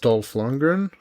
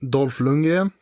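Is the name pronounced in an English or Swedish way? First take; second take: English; Swedish. First: The name is pronounced the English way. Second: The name is pronounced the Swedish way.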